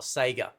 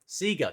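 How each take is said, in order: First: The word is said a non-Australian way. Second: The word is said the Australian way. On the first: The speaker calls it wrong. "not Sega" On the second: The speaker calls it right. "we Australians, we say it the proper way"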